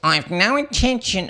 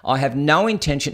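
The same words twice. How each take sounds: First: It is said in a put-on, imitated voice. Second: It is said in the speaker's normal voice.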